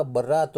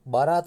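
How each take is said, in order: First: बर्रात with a doubled, rolled rr; सही उच्चारण बर्रात; correct pronunciation. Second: बारात said with a plain single r, as the mistake; गलत उच्चारण बारात; wrong pronunciation. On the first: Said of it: "बर्रात होता है". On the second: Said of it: "बारात नहीं होता". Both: Shown as a demonstration.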